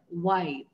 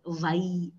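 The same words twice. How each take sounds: First: The W is said with rounded lips. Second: The W is said without lip rounding. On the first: The speaker calls it right. "that is rounded" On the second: The speaker calls it wrong. "that's the typical way South Indians say sometimes"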